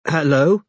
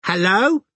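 First: Tentative hello, rising at the end; cautious, higher-pitched greeting. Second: Put-on high, rising toddler voice; shrill little questioning hello. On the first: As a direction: answer warily, as a question. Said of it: "said Robin cautiously". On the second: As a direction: pipe up like a small child answering the phone. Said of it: "as a shrill toddler's voice said". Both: A narrator's reading.

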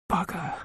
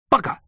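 First: High, hushed half-whispered curse; inward echoed curse. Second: Sudden sharp "Bugger!" outburst; exclaimed curse. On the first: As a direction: swear softly to yourself. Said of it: "I thought, echoing my mother". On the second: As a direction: curse aloud in annoyance. Mother exclaims as the cooker fails. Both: A narrator's reading.

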